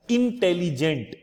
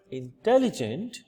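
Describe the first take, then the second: First: In-tel-li-gent with no syllable swallowed; Hindi-style intelligent, every syllable stressed. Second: Said in the usual way. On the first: Shown as a demonstration. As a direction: give each syllable of intelligent its weight. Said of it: "we put stress in each and every syllable". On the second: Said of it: "which is pronounced in English".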